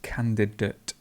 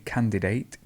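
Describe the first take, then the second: First: The unstressed vowel is reduced to schwa. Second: The unstressed vowel is a full vowel. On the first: The speaker calls it right. "the schwa would appear here, so it's just candidate" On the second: The speaker calls it wrong. "people say candidate"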